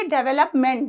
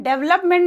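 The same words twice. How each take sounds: First: डेवलपमेंट with every vowel, "de-ve-lup-ment"; correct development. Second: डेवलपमेंट squeezed to "dev-lup-ment"; mispronounced development. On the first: Teacher models it for students, डेवलपमेंट as "de-ve-lup-ment". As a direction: keep the middle "ve" in डेवलपमेंट. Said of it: "उसी तरह से डेवलपमेंट होता है". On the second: Teacher warns students off it, डेवलपमेंट as "dev-lup-ment". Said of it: "नहीं बोलना है". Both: Shown as a demonstration.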